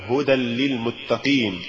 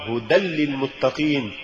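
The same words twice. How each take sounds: First: Careful model of هدى للمتقين; correct recitation. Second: Deliberate slip on هدى للمتقين; mispronounced recitation. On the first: Narrator shows learners the fix for هدى للمتقين, correct reading. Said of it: "والصواب". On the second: Narrator shows learners the error in هدى للمتقين, wrong reading. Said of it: "وكأن يقال". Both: Shown as a demonstration.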